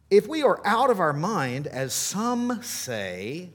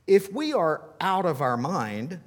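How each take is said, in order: First: Louder, mocking the accusers; sarcastic. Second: Said in the usual way. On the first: Shown as a demonstration. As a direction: drip with sarcasm on as some say. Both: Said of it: "can't you hear just a skosh of sarcasm there".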